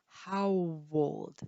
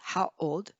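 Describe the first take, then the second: First: A light W glide links the two words. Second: The words are said with no W glide. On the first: The speaker calls it right. "but we say how old" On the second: The speaker calls it wrong. "We don't say how old"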